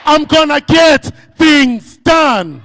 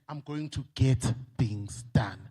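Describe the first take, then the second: First: High, slow, loud rallying pledge; shouted pledge. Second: Softer, lower, slow spoken promise; quiet pledge. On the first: Speaker leads the audience in a final pledge to the bank, shouting. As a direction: shout the promise as a battle cry. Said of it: "Let's say it one more time". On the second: Speaker models a quiet pledge to the bank, low and soft. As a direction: say it to yourself as a private vow. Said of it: "We are Bathembisa ukuthi". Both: Shown as a demonstration.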